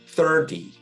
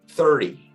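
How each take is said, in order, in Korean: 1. 가운데 자음은 d 소리가 납니다. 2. 가운데 자음은 빠른 r 소리처럼 납니다. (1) "D 발음으로 하거든요" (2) "좀 더 빨리 하거나 편안하게 발음하면 ... R 리을처럼 또 들리기도 합니다"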